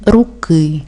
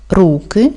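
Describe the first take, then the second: First: "руки" with stressed final "ки"; stress on last syllable. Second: "руки" with stressed "ру"; stress on first syllable. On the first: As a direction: lean on the second syllable of "руки". («руки» з наголосом на «ки») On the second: («руки» з наголосом на «ру») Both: Shown as a demonstration. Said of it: "наголос в українській мові може бути рухомим".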